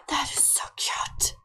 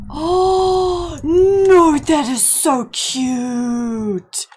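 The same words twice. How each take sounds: First: Breath-only, softer gushing; gasp, then whisper it, overcome; cute-overload whisper. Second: Loud, high gushing wail, drawn out; cute-overload squeal. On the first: Player overcome by her little boy running around, awed whisper. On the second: Player melting at her little boy running around, gushing squeal. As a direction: squeal and stretch it out, melting at the cuteness. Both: Real, not acted.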